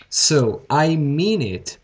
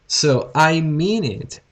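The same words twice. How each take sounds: The two takes are said the same way.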